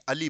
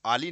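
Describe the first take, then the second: First: अली with a short opening a; correct short-vowel form. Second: आली with a long opening aa; wrong long-vowel form. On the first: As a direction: keep the first vowel of अली brief: "uh-lee". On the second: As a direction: stretch the first vowel of आली: "aa-lee". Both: Shown as a demonstration. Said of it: "आली नहीं, अली बोलते".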